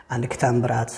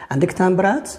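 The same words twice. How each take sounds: First: Said in the usual way. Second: Higher, "تامبرات" rising sharply at the end; question intonation. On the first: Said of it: "خبرت". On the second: Shown as a demonstration. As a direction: ask by lifting "تامبرات". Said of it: "سولت". (نبرة سؤال، مع رفع الصوت في "تامبرات")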